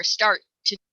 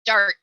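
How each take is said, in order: First: "start to" with a stretched t; wrong past tense. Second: "start" clipped, with no ending; wrong past tense. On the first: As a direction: say "start" with an extra "to". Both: Shown as a demonstration. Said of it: "we wouldn't say".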